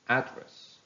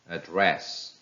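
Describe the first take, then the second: First: It is stressed with the noun's stress pattern. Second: It is stressed with the verb's stress pattern. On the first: "How will they sound if they are noun?" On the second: "some of the verbs that are following this rule"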